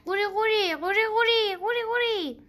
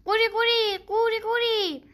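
First: High croaking calls, repeated; high croaks again and again; repeated frog croak. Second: High, loud croaking call; high frog croak; happy frog croak. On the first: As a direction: croak three times like a frog. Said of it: "سه بار تکرار کرد". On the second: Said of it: "با خوشحالی قبول کرد و گفت". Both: A narrator's reading.

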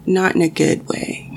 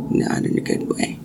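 First: Said in the usual way. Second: Whispered. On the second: Shown as a demonstration. Telling a viewer the dream felt wrong, in a whisper. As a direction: repeat it in a hushed whisper.

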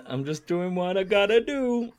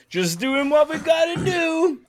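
First: Higher-pitched, lightly put-on quote; mimicked quote. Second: Very high, mock shouted quote; exaggerated quote. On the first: Host echoing the contestant's script, lightly put-on quote. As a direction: echo the line in a mild character voice. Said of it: "if you want the full script". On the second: Host proclaiming the sentiment of the answer, high mock shout. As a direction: belt it out in a silly high voice. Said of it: "the sentiment is".

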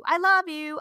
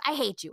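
First: High, louder teasing declaration of love; sing-song it back, pitched up; playful dad. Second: Put-on hateful child. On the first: Retold or imitated. Mom voices husband answering their son, playfully loving. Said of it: "trying to be funny". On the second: Mom voices her son rejecting dad, blunt. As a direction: answer with a blunt little-kid rejection. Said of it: "raging about something".

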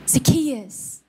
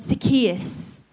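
First: A mother's gentle naming; loving call. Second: Gently calling his name; loving call. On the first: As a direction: say his name tenderly. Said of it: "said with love and compassion". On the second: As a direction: say his name like a mother would. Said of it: "said like that, in that tone". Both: Retold or imitated.

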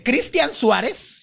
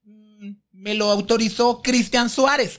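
First: Slow, rising incredulous echo; scornful disbelief. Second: Slow, stalling reply; hesitate, then offer the name carefully; hesitant answer. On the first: Diva questioning her boyfriend's authority, scornful disbelief. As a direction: throw the name back in mock disbelief. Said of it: "para que vean lo perra". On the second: Interviewer telling the diva who gave permission, hesitant answer. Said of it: "Y yo". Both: Retold or imitated.

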